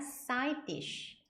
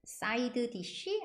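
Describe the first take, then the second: First: The two d sounds merge into one. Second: Both d sounds are pronounced separately. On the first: The speaker calls it right. "연음으로 소리내서 해주시면 돼요" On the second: The speaker calls it wrong. "아니라"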